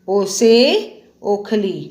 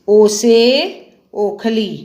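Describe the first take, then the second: Both takes have the same delivery.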